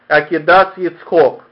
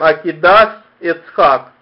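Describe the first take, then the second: First: Tav sounds as s, final vowel is 'o'. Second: Tav sounds as s, vowels are 'a'. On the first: This is close to the Lithuanian tradition. "или не как Акидас Ицхок, как, видимо, в чем-то приближено к Литве" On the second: This is the mixed usage heard in most synagogues. "Поэтому мы читаем Акидас Ицхак"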